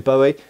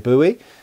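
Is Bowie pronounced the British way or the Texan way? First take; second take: British; Texan. First: It is the British pronunciation of the name. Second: It is the Texan pronunciation of the name. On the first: "British people say Bowie" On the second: "in Texas they say Bowie"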